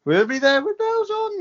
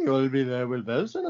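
First: High, louder sing-song sign-off. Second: Low, softer echo of the slogan. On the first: S1 joking with the show's name, pitched high. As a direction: pitch the slogan up high and bright. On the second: S1 echoing the show's name, low and soft. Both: Pretend.

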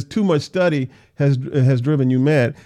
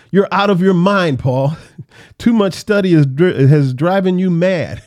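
First: Said in the usual way. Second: Louder, scoffing shout with a laugh breaking in; loud exclamation. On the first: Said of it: "it's funny that he says". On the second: Acted. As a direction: exclaim it loudly, half laughing at him. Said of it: "Festus exclaimed in a loud voice".

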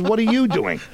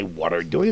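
First: YOU pitched high and loud; stress on YOU. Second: Said in the usual way. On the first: Retold or imitated. Fellow actors correcting his misread script line, stress on YOU. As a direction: punch the missing word YOU, exasperated correction. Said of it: "it doesn't say what are doing. It says". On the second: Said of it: "it doesn't say what are doing".

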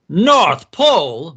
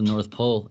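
First: Loud, higher mocking exclamation; scoffing boss's loud outburst; cackling disbelief. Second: Said in the usual way. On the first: A narrator's reading. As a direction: boom it out, slow and incredulous. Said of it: "B Z cackled".

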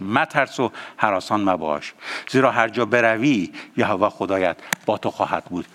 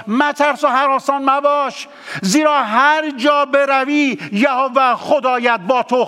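First: Low, soft, reverent reading of مترس و هراسان مباش; quiet verse reading. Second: Verse proclaimed high and insistent, مترس driven hard; preached verse. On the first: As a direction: read the verse gently before prayer. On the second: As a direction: call the verse out to the congregation. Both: Shown as a demonstration. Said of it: "با این آیه دوباره میخونمش".

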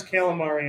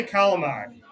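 First: "calamari" in full with a final ee; common pronunciation. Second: "calamari" said calamad, final vowel dropped; Italian-American pronunciation. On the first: Quoting everybody's way of saying it, full "calamari". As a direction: say "calamari" quickly, all four syllables ending in -ee. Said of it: "Everybody says calamari". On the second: Telling everyone how to say it, dialect "calamari" as calamad. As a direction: say "calamari" as kah-la-MAD. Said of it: "you gotta say calamari". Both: Shown as a demonstration.

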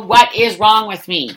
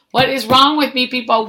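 First: Louder slower exasperation. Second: Exasperated self-reproach. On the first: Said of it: "repeated louder, slower". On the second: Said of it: "self-reproach, rising". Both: Real, not acted.

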